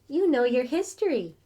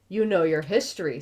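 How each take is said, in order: First: It is said in a light female voice. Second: It is said in the reader's normal voice.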